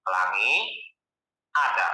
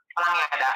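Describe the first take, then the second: First: "Pelangi" rising, long pause, then "ada" dropped low; split by intonation. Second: "Pelangi ada" joined in one falling tune; run-together phrase. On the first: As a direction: separate "Pelangi" from "ada" with a clear break. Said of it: "Dia pasti satu, satu ya". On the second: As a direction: say "Pelangi ada" with no break between the words. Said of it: "Kita kombinasiin dengan intonasi". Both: Shown as a demonstration.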